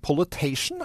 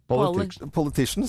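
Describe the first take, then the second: First: The word ends in a '-tation' sound. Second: The word ends in a '-ticians' sound. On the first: The speaker calls it wrong. "Men hva er det? Politation?" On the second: The speaker calls it right. "For det heter"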